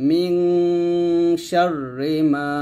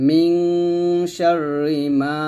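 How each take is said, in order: The two takes are said the same way.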